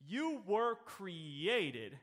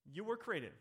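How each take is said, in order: First: "You" drawn out slowly and leaned on; stress on YOU. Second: "were" lifted, softer falling finish; stress on WERE. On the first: Preacher to congregation, hitting "You" slowly. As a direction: land hard on "You" at a very slow pace. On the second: Preacher repeating to the congregation, now stressing "were". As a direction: tip the weight onto "were" and let it fall. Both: Shown as a demonstration.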